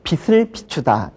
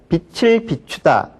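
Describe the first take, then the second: First: A different consonant replaces the final consonant's sound. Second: The final consonant's own sound links into the vowel. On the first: The speaker calls it wrong. "이거는 잘못된 발음입니다" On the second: The speaker calls it right. "빛을로 발음을 해야 됩니다"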